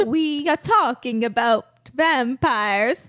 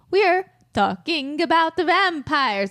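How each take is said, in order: First: Put-on slow, drawn-out Transylvanian vampire accent. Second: Raised, mock Italian vampire voice; Italian vampire accent. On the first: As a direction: savor each word like Count Dracula. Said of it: "your vampire accent's amazing". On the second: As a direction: try a vampire line with an Italian flair. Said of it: "So that's an Italian vampire".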